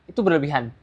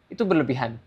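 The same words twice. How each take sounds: No difference in how they are said.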